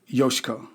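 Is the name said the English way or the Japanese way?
Japanese. The name is said the Japanese way. This is how the owner says her name. The speaker calls it right. "Her name was Yoshiko"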